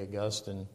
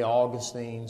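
First: Augustine as uh-GUS-tin; Augustine with the weight on GUS; alternate pronunciation. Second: Put-on Augustine as AW-gus-teen; Augustine with first-syllable stress and "-steen" ending; alternate pronunciation. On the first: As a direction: stress the middle of Augustine, short "tin" ending. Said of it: "some people say Augustine". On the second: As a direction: end Augustine on a long "steen". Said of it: "apparently some people say Augustine". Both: Shown as a demonstration.

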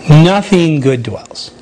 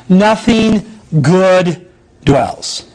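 First: Nothing good dwells said slowly, lower; slow repeated emphasis. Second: Nothing good dwells drawn out slowly; slow stressed reading. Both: Acted.

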